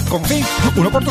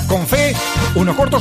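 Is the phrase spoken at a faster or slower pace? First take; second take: faster; slower. First: The phrase is spoken at a much faster pace. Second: The phrase is spoken at a normal pace.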